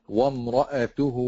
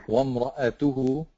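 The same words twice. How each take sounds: Both takes have the same delivery.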